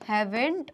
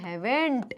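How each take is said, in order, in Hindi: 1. यह एक कॉन्ट्रैक्ट शब्द में बोला जाता है। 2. यह एक कॉन्ट्रैक्ट शब्द में बोला जाता है।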